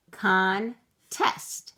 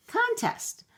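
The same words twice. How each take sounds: First: Said in the usual way. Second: Sung, "Contest" said much higher, drawn up; sung, lift "Contest" way up playfully. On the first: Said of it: "sound out the first syllable". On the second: Shown as a demonstration. Sung, teacher repeating the new word in a high voice.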